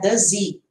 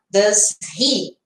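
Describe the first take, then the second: First: The h of he is dropped, words linked. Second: The h of he is pronounced separately.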